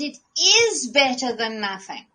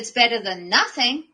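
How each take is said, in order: First: The word 'is' carries strong emphasis. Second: The word 'is' is reduced and unstressed. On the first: It really is an improvement worth valuing. The speaker calls it right. "you have carte blanche about where you put the emphasis" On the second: It is a grudging, disappointed concession. The speaker calls it wrong.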